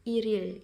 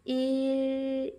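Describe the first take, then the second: First: The two syllables are linked with an r sound. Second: The two syllables are said as separate units.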